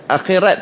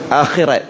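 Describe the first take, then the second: First: The word ends with a t sound. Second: The word ends with a t sound.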